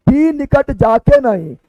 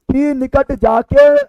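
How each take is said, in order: First: Slow verse, "जाके नहीं" joined with a falling end; pause after नहीं. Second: Slow verse reading, "जाके" rising before a halt; stop after जाके. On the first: Teacher showing the second reading, pause after नहीं. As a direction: carry on past "जाके", stop on "नहीं". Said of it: "अब यहाँ तक पढ़ना है". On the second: Teacher showing students where to stop, pause after जाके. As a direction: draw out the phrase, halt at "जाके". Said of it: "यहाँ पे, यहाँ रुकना है". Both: Shown as a demonstration.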